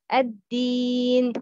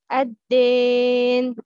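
First: The long ee vowel is clear and pure. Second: The long ee vowel has an added a sound. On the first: The speaker calls it right. "You should pronounce ya mad clearly and not add fatha sound to it" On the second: The speaker calls it wrong. "the wrong pronouncing"

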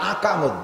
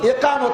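First: The word begins with an 'a' vowel. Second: The word begins with an 'i' vowel. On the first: The speaker calls it wrong. "ইকামত দেয় না, আকামত দেয়" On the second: The speaker calls it right. "শব্দ ইকামত বলেন"

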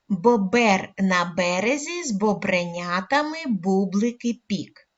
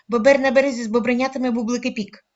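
First: The sentence is spoken at a slower pace. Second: The sentence is spoken very fast. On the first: "кожного разу пришвидшуючи темп" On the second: "говоримо дуже швидко скоромовку"

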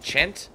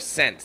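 First: The word begins with a ch sound. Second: The word begins with an s sound. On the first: "is it a s sound or is it a ch?" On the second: "like sense"

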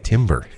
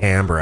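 First: It sounds just like the word timber. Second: It does not sound like the word timber. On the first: The speaker calls it wrong. "Most people say timber" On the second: The speaker calls it right. "I like how you pronounce that correctly"

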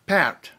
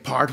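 First: The vowel is a clear open 'ah' sound, not coloured by the r. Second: The vowel is an ordinary English 'ar' sound, coloured by the r. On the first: The speaker calls it right. "It's part" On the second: The speaker calls it wrong. "that's just incorrect, and somebody's probably going to call you on it"

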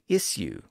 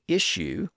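First: The middle consonant is a plain s sound. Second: The middle consonant is a sh sound. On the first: "with an S sound" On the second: "with an SH sound"

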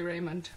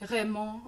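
First: The name is said with English pronunciation. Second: The name is said with French pronunciation. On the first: "Blunt and English pronunciation" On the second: "I'm guessing it's like Raymond or something like that"

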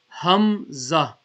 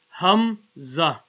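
First: The word begins with a breathy h sound. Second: The word begins with a breathy h sound.

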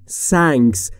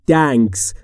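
First: The word starts with an s sound. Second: The word starts with a t sound. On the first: "یا نباید بگیم" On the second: "یا نباید بگیم"

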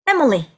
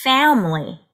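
First: All three syllables have even, equal length. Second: The first syllable is stretched longer than the rest. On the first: The speaker calls it wrong. "이렇게 발음하면 다다다 다다다의 느낌이 나기 때문에" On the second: The speaker calls it right. "앞부분을 조금 길게 해주시고요"

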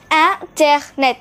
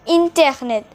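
First: The word is said with French pronunciation. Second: The word is said with English pronunciation. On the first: The speaker calls it right. "the pronunciation is something you need to look out for. Internet" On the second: The speaker calls it wrong. "not internet"

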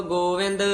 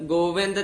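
The two takes are said the same way.

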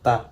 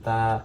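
First: The vowel is kept short. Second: The vowel is drawn out long. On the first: "আর এখানে যদি জজম দেই তাহলে হবে তা" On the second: "এটা টান হবে তা"

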